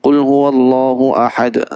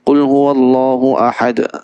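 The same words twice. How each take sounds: First: The sounds are mumbled at the front of the mouth. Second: The same.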